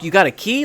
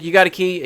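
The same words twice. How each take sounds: First: It sounds excited and thrilled. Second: It sounds bored and unenthusiastic.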